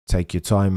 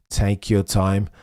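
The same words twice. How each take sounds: First: Low voice leaning on "time"; stress on time. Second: Low voice leaning on "your"; stress on your. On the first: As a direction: Take your time, hit "time". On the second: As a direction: Take YOUR time, hit "your". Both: Retold or imitated. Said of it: "I think G P is telling".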